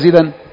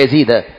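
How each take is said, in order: First: The name ends with a nasal -an ending. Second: The name ends in a plain -a, no nasal. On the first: The speaker calls it wrong. "ها يزيد ولا يزيدا" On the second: The speaker calls it right. "ممنوع من الصرف، يبقى يزيد"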